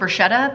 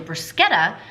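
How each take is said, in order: First: It is said with an American pronunciation. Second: It is said with an Italian pronunciation. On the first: This is the familiar way from growing up. "because I'm an American and that's how I'm gonna do it" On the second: This is how it is said in Italy. "came back and said it was actually"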